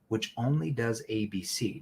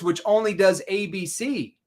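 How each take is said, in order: First: The tone is soft, concerned and empathetic. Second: The tone is argumentative and combative. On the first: The speaker cares about the listener's interests. The speaker calls it right. "More of a concern tone for them, more empathy" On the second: The speaker is arguing with the listener. The speaker calls it wrong. "See, that's combative"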